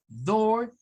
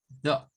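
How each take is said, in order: First: Door higher, R sounded; American door; rhotic door. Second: Door as do, no R; non-rhotic door; British door. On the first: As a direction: say door with a clear R. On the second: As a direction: drop the R: do. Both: Shown as a demonstration. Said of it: "repetimos estos".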